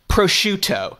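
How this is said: It is said in a general American accent. "classic American or Canadian would go"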